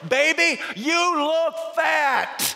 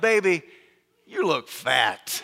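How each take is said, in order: First: It is said louder and more slowly. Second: It is said at normal loudness and pace.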